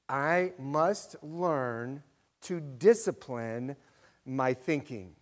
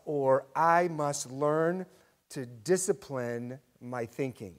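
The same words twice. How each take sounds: First: Very slow repeat, stretching "I must learn"; slower repeat. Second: Slow, deliberate stress on "discipline"; slow emphasis. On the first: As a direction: say it again, slower and weightier. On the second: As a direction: lean on "discipline", drawn out. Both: Shown as a demonstration. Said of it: "Let me say that again".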